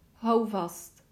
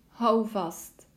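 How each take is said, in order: Both takes have the same delivery.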